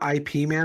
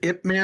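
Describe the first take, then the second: First: Ip is said as two separate letters. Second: Ip is said as a single syllable. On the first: The speaker calls it wrong. "It's not I P Man. I've heard people say it that way too" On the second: The speaker calls it right. "It's it is Ip Man"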